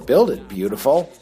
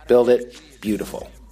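First: It is said in a flirtatious, seductive way. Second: It is said in a plain, neutral way.

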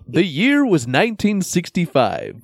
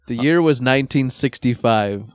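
First: It is said in an exaggerated storyteller voice. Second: It is said in an ordinary speaking voice. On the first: The speaker calls it right. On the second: The speaker calls it wrong.

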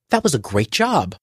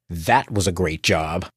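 First: It sounds sincere and warm. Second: It sounds sarcastic and mocking.

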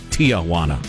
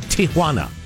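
First: The name begins with a separate 'Tia' syllable. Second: The name begins without a separate 'Tia' syllable. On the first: The speaker calls it wrong. "Both of you seem to have Aunt Juana's" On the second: The speaker calls it right. "try for Tijuana"

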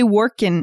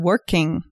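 First: The ending is said without the final g sound. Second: The ending is said with the final g sound.

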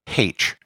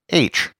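First: The letter is said the Irish Catholic way. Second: The letter is said the Northern Irish Protestant way. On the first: "Catholics would pronounce it H, which is how it's pronounced in the Republic of Ireland" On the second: "Protestants would pronounce it H"

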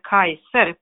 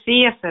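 First: The word begins with a k sound. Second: The word begins with an s sound. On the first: This is the classical Latin pronunciation. "och inte Kaiser på det klassiska latinet" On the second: This is the early modern Latin pronunciation. "Vi säger Caesar"

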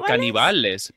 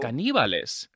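First: The stress does not fall on the second syllable. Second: The stress falls on the second syllable. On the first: This is how the speaker normally says it. "I would say Caníbales" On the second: This is the form given in the listing. "The accent is on the I"

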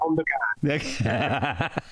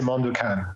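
First: The name is pronounced the Italian way. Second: The name is pronounced the English way. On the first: "to Italy, I'll say" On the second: "somebody asks in English, I would say"

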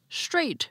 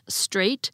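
First: It begins with an sh sound. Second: It begins with a plain s sound. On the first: "as if they actually began with an SH" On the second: "Instead of"

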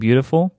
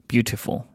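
First: The middle consonant sounds like a D. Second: The middle consonant sounds like a T. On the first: This is how the speaker now tends to say it. "the D sound instead of the T sound" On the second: This is how the speaker used to say it. "As opposed to"

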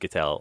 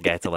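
First: The name does not rhyme with kettle. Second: The name rhymes with kettle. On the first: "I've also said Gettel a lot" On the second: "I think it's Gettel as in kettle"

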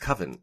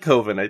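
First: The first vowel is short, rhyming with oven. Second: The first vowel is long, not rhyming with oven. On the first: This is the standard pronunciation. "no, it's coven" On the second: This is the pronunciation borrowed from the movie. "but I like coven"

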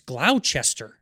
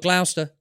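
First: The word is said fully, following its spelling. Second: The word is said in a shortened local form. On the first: This follows how the word is spelled. "no, it's Gloucester" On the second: This is how the locals say it. "they would go Gloucester"

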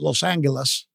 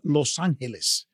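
First: The name has an English pronunciation. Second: The name has a Spanish pronunciation. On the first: This is not the city's true name. The speaker calls it wrong. "It's not called" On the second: This is the city's true name. The speaker calls it right. "It's called"

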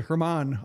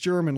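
First: The name does not sound like English German. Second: The name sounds like the English word German. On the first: This was a guess based on similar names. "I was going to say Hermann" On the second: This is the official pronunciation. "it's German, like the language"

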